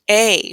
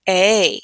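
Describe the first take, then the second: No difference in how they are said.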